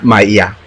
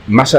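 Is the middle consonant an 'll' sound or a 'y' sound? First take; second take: y sound; ll sound. First: The middle consonant is a 'y' sound. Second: The middle consonant is a palatal 'll' sound. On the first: "pero un colombiano, ¿cómo diría?" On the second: "malla decimos nosotros"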